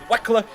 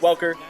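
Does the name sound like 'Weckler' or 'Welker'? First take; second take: Weckler; Welker. First: The name is said like 'Weckler', no L sound. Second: The name is said like 'Welker', with an L sound. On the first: It copies how someone else says the name. The speaker calls it wrong. "Mayor Menino, the mayor of Boston, pronounces it Wes Weckler" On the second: It is the name's usual pronunciation. The speaker calls it right. "I know it's Welker"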